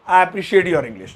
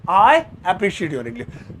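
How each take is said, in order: First: Slow, clear model sentence; I appreciate your English said slowly; slow model line. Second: Very slow, drawn-out sentence; I appreciate your English drawn out very slowly; very slow model line. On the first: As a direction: say it slowly for learners. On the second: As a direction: stretch every word. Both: Shown as a demonstration.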